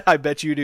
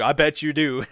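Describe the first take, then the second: First: Loud, laughing I bet you do; real laugh through the tease. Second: Said in the usual way. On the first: Real, not acted. Teasing a viewer.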